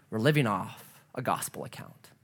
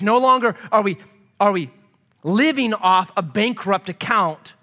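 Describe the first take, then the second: First: Low, soft, settled preaching; quiet assurance. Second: Emphatic preaching. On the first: Preacher offers the gospel account, quietly assuring. Gentle answer to bankrupt account. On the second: Preacher rejects the bankrupt account, loud and emphatic. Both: Real, not acted.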